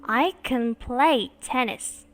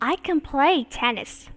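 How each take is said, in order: First: Slow with "play" stressed; slow model. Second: "can" reduced, "play" stressed; weak can, stressed verb. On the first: Teacher modelling slowly for class, "play" stressed. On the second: Teacher modelling for class, "can" weak, "play" stressed. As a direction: swallow "can", hit "play". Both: Shown as a demonstration. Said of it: "Cô đọc lại cho các bạn nghe nha".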